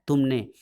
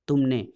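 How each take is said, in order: First: तुमने फिर उतना ही ज़ोर देकर; तुमने दोहराकर ठोक दो; ज़ोरदार आरोप. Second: तुमने पर ज़ोर देकर उतरता स्वर; तुमने को उँगली उठाकर कहो; ज़ोरदार आरोप. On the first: (बुआ पर दोहराया आरोप, तुमने पर ज़ोर) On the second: आरोप दोहराती गुलकी. (बुआ पर आरोप, तुमने पर ज़ोर) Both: A narrator's reading.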